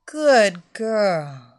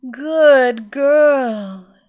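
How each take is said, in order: First: Loud, satisfied praise; praising mistress. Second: Loud, drawn-out praise; praising mistress. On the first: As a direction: reward her warmly and proudly. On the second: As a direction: reward her like a proud mistress. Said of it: "Evelina murmured". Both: Acted.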